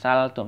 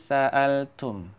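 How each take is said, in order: First: The word runs on without a glottal catch. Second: A glottal catch follows the first syllable. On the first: The speaker calls it wrong. "Jangan saltum" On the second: The speaker calls it right. "tapi sa'altum"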